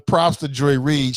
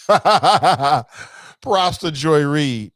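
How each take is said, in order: First: Said in the usual way. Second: Laughing through it, slowly. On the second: Real, not acted. Host cracking up while crediting Joy Reid, laughing. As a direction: let the laugh carry the words.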